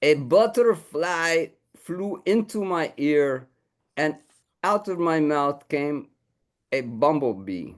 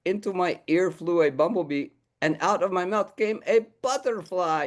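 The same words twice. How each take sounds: First: Lightly raised, slow puppet voice reciting; puppet dog recites haiku. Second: Lightly raised puppet voice, reversed version; revised haiku. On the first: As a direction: recite the first draft with mock gravity. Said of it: "It goes like this". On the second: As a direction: say the improved line proudly. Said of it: "I think you should change that". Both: Acted.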